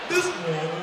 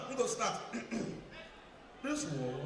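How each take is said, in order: First: Much lower but full-voiced pastor call; booming pastor voice. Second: Much lower and softer, a murmured pastor opening; deep pastor voice. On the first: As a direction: boom it low like a pulpit preacher. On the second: Acted. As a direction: drop low and quiet like a pastor. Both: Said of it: "which church when the pastor they sound like this".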